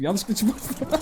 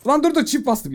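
First: Said in the usual way. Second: High, loud panicked "dur dur"; panicked outburst. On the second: Real, not acted. Gamer panicking at his double keypress, loud and high. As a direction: cry out in alarm at the mistake. Pressed a key twice by mistake.

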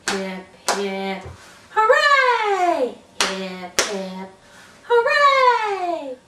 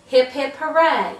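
First: Hip hip hooray. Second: Said in the usual way. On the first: Shown as a demonstration. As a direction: build to a burst on hooray.

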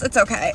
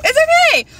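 First: Said in the usual way. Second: Very high, loud squeal; excited yell. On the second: Real, not acted. Vlogger shrugs off wobbling phone, excited yell.

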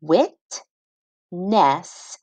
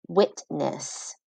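First: "Witness" stretched out slowly, syllables joined; teacher blending "Witness" slowly; slow blended word. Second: Said in the usual way. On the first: Shown as a demonstration. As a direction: draw out "Witness" as you blend it.

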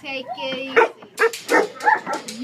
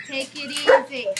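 First: Drawn out, very slow calming; slow soothing. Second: Said in the usual way. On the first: Real, not acted. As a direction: stretch every word to soothe the dog. Calming an excited dog.

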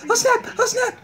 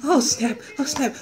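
First: "Oh, snap" pitched up high. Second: "Oh, snap" in a soft, lowered voice; low oh snap. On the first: Reacting to what is on, high "Oh, snap". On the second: Reacting to what is on, low "Oh, snap". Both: Acted.

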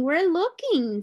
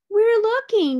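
First: Little monkeys, slower. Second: Much higher, louder chattering monkey voice; busy monkeys reassuring the gorilla; little monkeys. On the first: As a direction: stretch the repeat out in a high monkey voice. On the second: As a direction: squeak it out like eager little monkeys. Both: A narrator's reading. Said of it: "said the six little monkeys".

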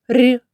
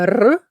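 First: Soft palatalized "р"; soft consonant. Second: Hard rolled "р"; hard consonant. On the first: Teacher introducing the hard sound's brother, soft "р". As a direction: say "р" softened, as before an "і". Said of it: "Він вимовляється м'яко". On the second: Teacher introducing the sound to children, hard "р". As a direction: trill "р" firmly, without softening it. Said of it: "який вимовляється твердо". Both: Shown as a demonstration.

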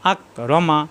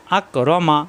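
Both takes have the same delivery.

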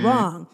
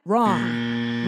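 First: Said in the usual way. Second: Wrong said in a very deep, low voice; a booming low Wrong, like a verdict; mock deep voice. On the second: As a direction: drop the voice way down for Wrong. Answers own question, very deep.

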